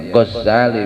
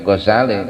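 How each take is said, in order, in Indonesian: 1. Bunyi z-nya dobel dan ditahan lebih lama. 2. Bunyi z-nya tunggal dan ringan. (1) "mentasdid za-nya ... itu salah" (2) "enggak pakai tasdid"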